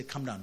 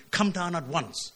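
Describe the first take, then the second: First: Said in the usual way. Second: "Come down at once" pressed a little higher, each word firm; authoritative emphasis. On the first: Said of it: "First time, the king said". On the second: Shown as a demonstration. The king's captain asserting his authority, firmly stressed. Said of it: "put emphasis on his authority".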